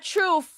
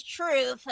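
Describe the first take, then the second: First: "truth" ending in an F sound; mispronounced final sound. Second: "truth" ending in TH; corrected pronunciation. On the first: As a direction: say "truth" as "troof". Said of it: "truth with a F at the end". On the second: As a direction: say "truth" with a final TH, no F. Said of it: "It's not truth with a F". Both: Retold or imitated.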